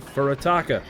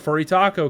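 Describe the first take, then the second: First: The name ends with a 'ka' sound. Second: The name ends with a 'ko' sound. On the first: It is the proper name. The speaker calls it right. "to actually pronounce it correctly" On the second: It is a joking nickname. The speaker calls it wrong. "we call it the Furitako because it's, it's funny"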